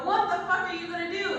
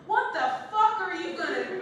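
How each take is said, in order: First: Blunt question. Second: Loud, high, laughing disbelief; mock exasperated. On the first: Retold or imitated. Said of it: "I would go". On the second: Comic blurting it to a pregnant friend, loudly incredulous.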